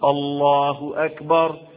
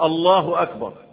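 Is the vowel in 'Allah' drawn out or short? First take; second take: drawn out; short. First: The vowel in Allah is drawn out. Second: The vowel in Allah is said short. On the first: The speaker calls it right. "هي بتتمد كده برضه" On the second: The speaker calls it wrong. "يجي الله أكبر، لا"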